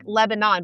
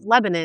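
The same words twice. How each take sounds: First: The name is said just as it is spelled. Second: The name is said the local way. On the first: The speaker does not live here. The speaker calls it wrong. "is spelled like Lebanon, but you would not call it that" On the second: The speaker lives in the area. The speaker calls it right. "It's Lebanon"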